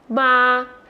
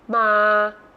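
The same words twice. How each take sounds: First: The pitch stays level in the middle. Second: The pitch stays low throughout.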